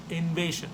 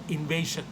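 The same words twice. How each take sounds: The two takes are said the same way.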